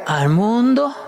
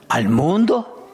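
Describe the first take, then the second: First: Louder, disbelieving repeat of the question; mock astonished ¿Al mundo?; incredulous echo. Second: Said in the usual way. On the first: Shown as a demonstration. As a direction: throw the question back in disbelief. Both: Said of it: "Al hombre".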